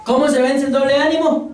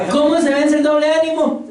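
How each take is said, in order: First: Said in the usual way. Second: ¿Cómo se vence el doble ánimo? repeated louder with ¿Cómo hit hard. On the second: Shown as a demonstration. Preacher repeats the question to the church with ¿Cómo stressed. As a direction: press ¿Cómo, driving the question home.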